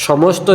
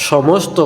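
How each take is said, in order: The two takes are said the same way.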